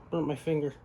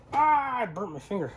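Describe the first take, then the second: First: Said in the usual way. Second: Pained, higher, wincing after a burn; burnt fingertips. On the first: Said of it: "Sorry, guys". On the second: Real, not acted. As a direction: wince through the sting of a burn.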